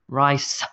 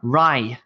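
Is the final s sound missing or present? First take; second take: present; missing. First: The word ends with a clear s sound. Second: The word ends without a final s sound. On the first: The speaker calls it right. "No, it's rice, rice. You have to get the s" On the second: The speaker calls it wrong. "I hear Vietnamese speakers say"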